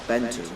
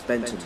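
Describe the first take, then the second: No difference in how they are said.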